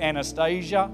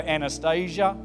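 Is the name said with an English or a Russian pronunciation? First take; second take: English; English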